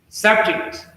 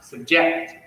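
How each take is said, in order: First: The stress is on the first syllable. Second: The stress is on the second syllable. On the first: It is used as a noun. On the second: It is used as a verb. "verb. So you'll see that stress shift to second syllable"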